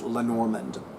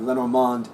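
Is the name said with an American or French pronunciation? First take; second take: American; French. First: The name has an American pronunciation. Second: The name has a French pronunciation.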